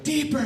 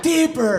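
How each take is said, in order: First: Mock demanding moan. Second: Una mujer que lo pide más alto y fuerte; demanding woman.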